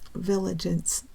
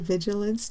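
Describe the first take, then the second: First: The L sound comes before the G sound. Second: The L sound comes after the G sound. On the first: The speaker calls it wrong. "kept telling me that the word the word was villigance" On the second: The speaker calls it right. "every time I say vigilance now"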